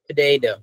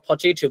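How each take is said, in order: First: The second t sounds like a soft d. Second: The second t is a clear t sound. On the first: The speaker calls it right. "Sounds like duh" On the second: The speaker calls it wrong. "ওরা এটাকে পটেটো আর বলে না"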